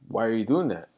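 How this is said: It is said in a calm, gentle tone.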